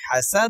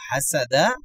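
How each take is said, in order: First: The word ends on the final consonant. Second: The word ends with a short final vowel. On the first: "থামার কারণে হাসাদ হবে" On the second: "দাল জবর দা হাসাদা"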